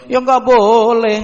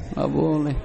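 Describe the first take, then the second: First: Slow, higher, louder NGGAK; emphatic no. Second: Said in the usual way. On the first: Real, not acted. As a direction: lean hard on nggak.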